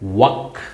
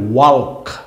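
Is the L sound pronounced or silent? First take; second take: silent; pronounced. First: The L sound is silent before the K. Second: The L sound is pronounced before the K. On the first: The speaker calls it right. "উচ্চারণ কি হবে? ওয়াক।" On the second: The speaker calls it wrong. "মনে হইতে পারে ওয়াল্ক, কিন্তু না"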